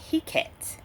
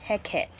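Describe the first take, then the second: First: Heket with a long "hee" at the start; alternative pronunciation. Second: Heket with a short "heh" at the start; alternative pronunciation. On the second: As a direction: say Heket as HEK-et. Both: Shown as a demonstration. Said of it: "named Heket or".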